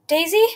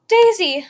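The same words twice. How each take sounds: First: Loud, rising, frightened call; desperate call. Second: Very loud, high, falling cry of panic; desperate cry. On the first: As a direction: call her name out in panic. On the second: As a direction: scream her name in despair. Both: A narrator's reading. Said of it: "I cried desperately".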